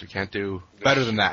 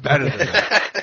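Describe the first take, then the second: First: Said in the usual way. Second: Better said louder, laughing; stress on Better. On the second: Shown as a demonstration. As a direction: correct himself with a laugh on Better. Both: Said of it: "I meant".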